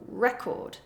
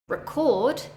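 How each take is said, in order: First: The stress is on the first syllable. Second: The stress is on the second syllable. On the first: It is used as a noun. "If I stress the first syllable, it is a noun" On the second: It is used as a verb. "if I stress the second syllable, record, it becomes a verb"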